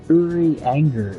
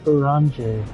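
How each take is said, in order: First: The name is said with the R sounded. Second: The name is said without the R sound. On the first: This is how the speaker remembered the name. "I think it was Uri Anger is how I remember it" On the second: This is how the characters say the name. "they don't pronounce the R. So they were like"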